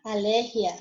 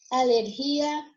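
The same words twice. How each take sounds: First: Alergia with the stress on LER. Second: Alergia drawn out slowly on GI; stress on GI. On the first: Teacher shows students the Spanish word, stress on LER in alergia. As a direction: say alergia as aLERgia, short ending. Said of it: "em espanhol". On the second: Teacher gives the Portuguese take, stress on GI in Alergia. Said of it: "porque vai mudar a sílaba tônica". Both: Shown as a demonstration.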